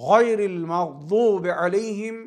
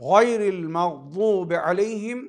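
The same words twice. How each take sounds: The two takes are said the same way.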